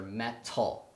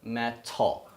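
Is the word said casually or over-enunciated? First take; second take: over-enunciated; over-enunciated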